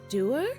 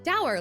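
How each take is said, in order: First: The word does not rhyme with sour. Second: The word rhymes with sour. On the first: This is how British people say it. "Is that how British people pronounce that?" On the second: This is the form the speaker has always heard. "like sour"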